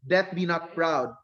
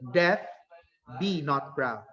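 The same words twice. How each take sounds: First: It is said without a pause after death. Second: It is said with a pause after death.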